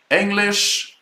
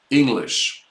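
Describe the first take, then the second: First: English pointed and higher, ending marked; teacher holds up English as an example; model word. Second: Said in the usual way. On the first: Shown as a demonstration. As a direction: lift English up to show the ending. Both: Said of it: "you see that at the end here".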